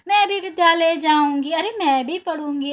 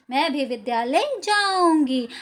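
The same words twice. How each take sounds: First: Clapping and dancing, bursting with joy; joyful girl. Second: Said in the usual way. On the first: Retold or imitated. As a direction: cheer it out like a delighted little girl. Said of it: "क्या कहते हुए?". (ताली बजाते हुए खुशी से उछलती बच्ची की आवाज़) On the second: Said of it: "मतलब मैं भी विद्यालय जाऊँगी".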